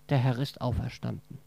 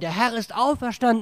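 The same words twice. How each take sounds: First: It is said quietly. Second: It is shouted loudly.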